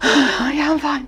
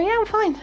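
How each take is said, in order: First: It is said with a weary, breathless sigh. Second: It is said easily, without any sigh.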